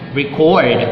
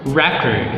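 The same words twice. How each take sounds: First: The stress is on the second syllable. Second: The stress is on the first syllable. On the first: It is used as a verb. "second syllable stress used as a verb" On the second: It is used as a noun. "the nouns"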